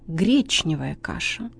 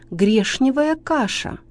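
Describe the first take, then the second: First: The sound before n is pronounced ch. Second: The sound before n is pronounced sh. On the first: The speaker calls it right. "правильно" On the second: The speaker calls it wrong. "ошибка"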